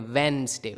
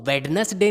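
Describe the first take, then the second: First: वेडनेसडे as two syllables, WENS-day; वेडनेसडे starting like "when"; correct pronunciation. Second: वेडनेसडे with the d sounded, WED-nes-day; three-syllable वेडनेसडे with audible first d; wrong pronunciation. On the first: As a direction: drop the first d in वेडनेसडे. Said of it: "जैसे वेन होता है वैसे ही". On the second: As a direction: say every letter of वेडनेसडे. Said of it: "नहीं बोलते हैं". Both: Shown as a demonstration.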